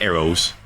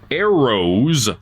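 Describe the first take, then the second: First: The word is said loosely and slurred. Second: The word is said carefully and clearly enunciated. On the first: The speaker calls it wrong. "not arrows" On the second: The speaker calls it right. "Sometimes you just have to enunciate"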